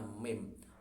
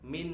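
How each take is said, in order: First: The word ends with an m sound. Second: The word ends with an n sound. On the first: This is how it is read before the letter ba. "menjadi suaranya mim" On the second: This is the underlying form before the rule applies. "Min aslinya non sukun"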